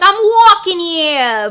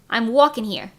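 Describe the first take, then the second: First: It has a strong, exaggerated New York accent. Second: It has a mild, toned-down New York accent. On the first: "Like the stereotypical New York accent" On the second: "It's like a toned down version of that"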